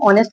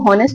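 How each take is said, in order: First: The word starts with a vowel sound. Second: The word starts with an h sound. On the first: The speaker calls it right. "इसको हम ऑनेस्ट पढ़ते" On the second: The speaker calls it wrong. "इसको हम हॉनेस्ट नहीं पढ़ते"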